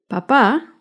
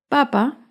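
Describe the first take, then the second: First: "papá" with the last syllable stressed, pa-PÁ; light first syllable, lean into the final PÁ of "papá"; stress on second syllable. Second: "Papa" with the first syllable stressed, PA-pa. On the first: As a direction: say "papá" as pa-PÁ, like dad. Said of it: "lleva el acento en la segunda sílaba". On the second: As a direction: lean on the opening PA of "Papa", light second syllable. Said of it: "lleva el acento en la primera sílaba". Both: Shown as a demonstration.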